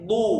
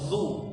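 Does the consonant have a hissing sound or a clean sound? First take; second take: clean; hissing. First: The consonant is clean with no hissing. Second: The consonant has a hissing, S-like sound. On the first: The speaker calls it right. "tapi bersih" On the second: The speaker calls it wrong. "jangan ada seperti huruf S ya"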